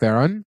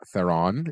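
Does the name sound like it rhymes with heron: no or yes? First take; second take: yes; no. First: The name rhymes with the word heron. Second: The name does not rhyme with heron. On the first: The speaker calls it right. "Think heron" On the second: The speaker calls it wrong. "Not Theron. I was corrected"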